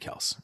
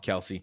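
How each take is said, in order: First: The name is said as one syllable. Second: The name is said as two syllables. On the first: The speaker calls it right. "his name's actually Kels" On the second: The speaker calls it wrong. "everyone's been mispronouncing it forever. But we still call him Kelsey"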